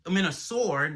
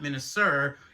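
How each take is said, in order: First: The name ends with an 'or' sound. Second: The name ends with an 'er' sound. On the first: The speaker calls it right. "It's Minas- Minosaur" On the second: The speaker calls it wrong. "not Minosaur"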